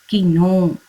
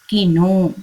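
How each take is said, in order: Both takes have the same delivery.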